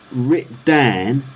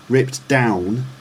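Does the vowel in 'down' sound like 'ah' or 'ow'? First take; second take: ah; ow. First: The vowel in 'down' sounds like 'ah'. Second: The vowel in 'down' sounds like 'ow'.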